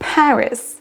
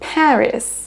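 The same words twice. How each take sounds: First: The first syllable is stressed. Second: The first syllable is stressed.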